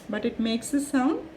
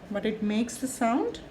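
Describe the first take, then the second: No difference in how they are said.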